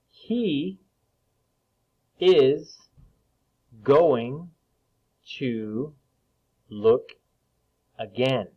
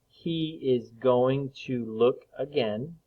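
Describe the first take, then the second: First: It is read slowly. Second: It is read quickly.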